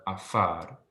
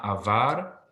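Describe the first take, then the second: First: Slowly, AFAR with an F instead of V; F sound. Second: AVAR said with a clear V; V sound, not F. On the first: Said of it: "pronounced as an F sound". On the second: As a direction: give AVAR a buzzing V in the middle. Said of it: "So it's not avar". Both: Shown as a demonstration.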